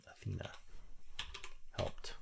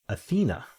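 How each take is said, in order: First: Athena murmured much softer to herself; quiet repeat. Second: Athena blurted high and bright with a falling finish; eureka. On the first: Filling in the answer to herself, quiet repeat. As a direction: say Athena under your breath while writing it in. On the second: Finding the crossword answer after a lookup, excited eureka. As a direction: announce Athena like you just cracked it. Answer found while looking up. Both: Real, not acted.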